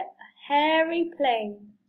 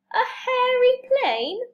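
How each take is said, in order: First: Said in the usual way. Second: High, drawn-out rising question; slow, high-pitched query; incredulous question. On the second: Acted. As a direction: echo it back in surprised disbelief. Amused disbelief at the name.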